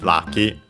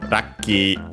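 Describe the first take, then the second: First: It begins with an L and has a short vowel at the end. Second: It begins with an R and has a long vowel at the end. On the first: "lucky from uh, English, lucky, of course" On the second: "Japanese doesn't have the L sound, so they use R instead... notice the doubling of the consonant and the final, uh, the longer vowel at the end"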